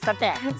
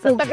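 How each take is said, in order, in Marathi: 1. शेवटच्या अक्षरात मोकळा 'ae' स्वर आहे. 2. शेवटच्या अक्षरात लहान 'uh' स्वर आहे. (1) "सटॅक आवाज आला पाहिजे" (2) "सटक नाही"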